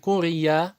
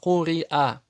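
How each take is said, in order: First: The vowels are joined by a y sound. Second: The vowels are separated by a glottal stop. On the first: The speaker calls it wrong. "Не курия" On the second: The speaker calls it right. "а куриа"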